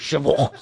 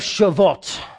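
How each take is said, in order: First: It is said with harsh throaty guttural sounds. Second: It is said plainly without throaty sounds.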